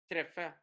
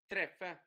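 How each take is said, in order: The two takes are said the same way.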